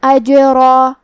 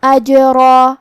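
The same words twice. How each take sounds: First: اجرا with the jeem bounced and echoing and a heavy ra; qalqalah on jeem. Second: اجرا with a bounced jeem, a heavy ra and a long alif at the stop. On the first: Teacher showing the class the qalqalah in اجرا. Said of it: "ہم یہ حرف کو ہلاتے ہوئے یہ کلمہ کو پڑھیں گے". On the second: Teacher showing the class the heavy ra in اجرا. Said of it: "را کو اور اس کے بعد مد الف کو دونوں کو بھاری آواز". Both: Shown as a demonstration.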